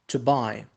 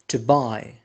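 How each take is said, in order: The two takes are said the same way.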